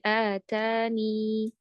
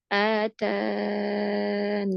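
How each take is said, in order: First: The word ends in a long 'ee' vowel. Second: The word ends in 'n' after a long 'a'. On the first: "isbatul ya, yaitu menetapkan huruf ya" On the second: "isqat atau menggugurkan atau menghilangkan ya-nya"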